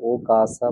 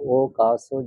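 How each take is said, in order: First: The word ends in an a vowel. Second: The word ends in an o vowel. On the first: The speaker calls it right. "ও কাসা বলতে হবে আপনাকে" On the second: The speaker calls it wrong. "ও কাসো যেটা আছে"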